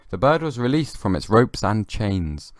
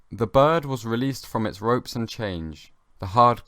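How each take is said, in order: First: "The bird was released from its ropes and chains" read slowly, now saying "chains" cleanly; corrected reading. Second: "The bird was released from its ropes and change" read slowly, saying "change" for chains; misread line. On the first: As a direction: fix the word, say "chains" with a clear final z. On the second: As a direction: stumble on "change" in a slow storybook read. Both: Shown as a demonstration. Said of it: "I said that wrong".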